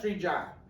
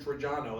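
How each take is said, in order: First: The name ends without its final vowel. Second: The name ends with a full final vowel. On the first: "They all cut that. They they cut the vowel off" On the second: "they don't say we're from Trajano"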